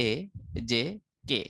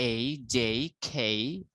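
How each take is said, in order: First: Said in the usual way. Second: Slow এই, যেই, খেই, each gliding to "ee"; drawn-out এই, যেই, aspirated খেই; British letter names. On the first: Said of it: "আমরা বলি কি". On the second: Shown as a demonstration. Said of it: "আর ব্রিটিশরা বলে".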